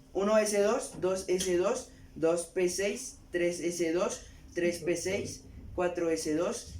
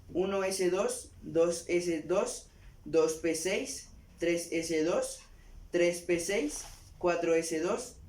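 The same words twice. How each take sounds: The two takes are said the same way.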